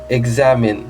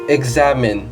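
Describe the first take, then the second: First: The x is sounded as a voiced gz. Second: The same.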